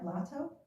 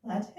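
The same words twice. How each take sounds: First: "Lato" as an unsure question; higher, softer questioning "Lato"; unsure pronunciation. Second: "Latte" as a questioning guess; "Latte", ending differently from "Lato"; unsure alternative pronunciation. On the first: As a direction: try "Lato" with a rising, doubtful end. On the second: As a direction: offer "Latte" as a second, doubtful try. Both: Real, not acted. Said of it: "how to pronounce our friend's name".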